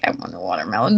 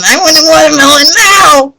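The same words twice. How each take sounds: First: Very low, soft gremlin croak; little gremlin. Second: Gremlin demand. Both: Retold or imitated. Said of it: "Like a little gremlin".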